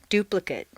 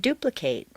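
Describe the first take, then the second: First: The last syllable has a weak reduced vowel. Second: The last syllable has a full 'ay' vowel. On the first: It is used as a noun or adjective. "completely reduced to mt" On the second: It is used as a verb. "a full a sound"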